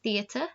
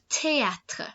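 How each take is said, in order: First: The word is pronounced with English sounds. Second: The word is pronounced with French sounds. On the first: The speaker calls it wrong. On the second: The speaker calls it right.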